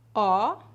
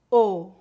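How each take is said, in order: First: The vowel is open, with the mouth wide. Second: The vowel is closed, with rounded, tighter lips. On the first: "Pronúncia aberta" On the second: "Pronúncia fechada"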